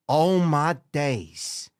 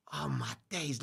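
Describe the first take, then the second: First: Slow, louder, stunned; drawn-out shock. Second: Softer, low mumble to yourself; muttered dismay. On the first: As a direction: let the disbelief stretch out. Shocked retold reaction. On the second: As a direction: mutter it in dread. Muttered to himself. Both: Retold or imitated.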